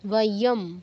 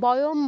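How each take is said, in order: First: The word starts with a w sound. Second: The word starts with a b sound. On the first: The speaker calls it right. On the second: The speaker calls it wrong.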